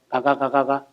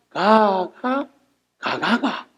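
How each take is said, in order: First: It is said as one flat, unbroken run. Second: It is split into two phrases with intonation.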